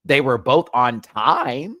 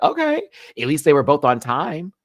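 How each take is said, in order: First: Slower, louder, leaning on both; slow emphatic repeat. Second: Higher, louder, half-exasperated relief; loud relieved okay. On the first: Shown as a demonstration. Vlogger repeating the lip sync timing point, slow and emphatic. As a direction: drag it out to hammer the point. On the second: Retold or imitated. Vlogger reacting to contestants finally on time, loud relief. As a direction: call it out like finally something went right. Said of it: "but I was like".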